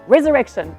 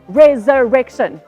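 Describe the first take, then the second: First: The word is said at the quickest pace. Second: The word is said at a quicker pace. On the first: "And a bit faster" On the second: "a bit faster"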